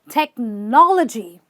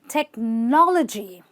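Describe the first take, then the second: First: The 'logy' part has a reduced, short vowel. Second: The 'logy' part has a reduced, short vowel.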